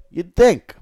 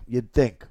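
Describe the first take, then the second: First: You'd think with think punched, higher and louder; high, loud, knowing You'd think; emphatic tease. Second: Said in the usual way. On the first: Shown as a demonstration. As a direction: land "think" hard, teasing.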